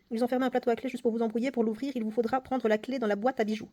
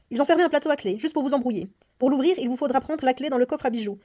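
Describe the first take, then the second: First: Said in the usual way. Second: Put-on louder, performed read of the old lady's warning; dramatic reading. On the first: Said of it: "il faut retenir". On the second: Player reading the old lady's warning aloud, dramatic narration. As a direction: voice the clue like a tense story.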